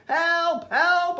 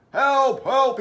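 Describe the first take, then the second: First: Put-on high-pitched boy calling for help; storybook boy in a panic; frantic call for help. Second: Raised, loud policeman's call; storybook policeman shouting for help; radioed call for help. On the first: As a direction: cry out for help, high and urgent. Boy phones policeman for help. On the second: Acted. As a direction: call out urgently over the radio.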